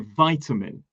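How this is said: American pronunciation, first syllable sounds like 'vie'. "they say vitamin"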